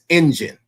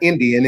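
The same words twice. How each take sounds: First: The middle consonant sounds like 'j' or 'y'. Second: The middle consonant is a clear 'd' sound. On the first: The speaker calls it right. "It's Indian. The D and the I is a J and a Y" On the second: The speaker calls it wrong. "it's not Indian"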